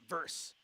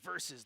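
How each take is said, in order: First: The word is said with one syllable. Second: The word is said with two syllables. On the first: The speaker calls it wrong. "not verse" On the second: The speaker calls it right. "properly pronounce the word versus"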